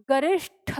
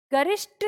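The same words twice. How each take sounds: First: गरिष्ठ with a clear aspirated ठ at the end; correct pronunciation. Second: गरिष्ठ said the wrong way, pitched up as the mistake; wrong pronunciation. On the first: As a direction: say गरिष्ठ properly, ending on a breathy ठ. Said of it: "होता है". (सही उच्चारण में गरिष्ठ, महाप्राण ठ के साथ) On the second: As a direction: say गरिष्ठ the way it should not be said. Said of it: "नहीं होता". (गलत उच्चारण में गरिष्ठ) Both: Shown as a demonstration.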